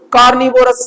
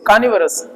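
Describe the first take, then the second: First: कार्निवोरस with the r's sounded and a full vo; कार्निवोरस said the wrong way, vorus not varus; wrong pronunciation. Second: कार्निवोरस said kaanivaras, r's silent, varas not vorus; कार्निवोरस with both r's silent and varas at the end; correct pronunciation. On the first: teacher गलत उच्चारण की नकल: कार्निवोरस. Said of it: "सामने वाला समझ ही नहीं पाएगा". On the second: teacher सही उच्चारण: कार्निवोरस, दोनों आर silent. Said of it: "वोरस नहीं होता है". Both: Shown as a demonstration.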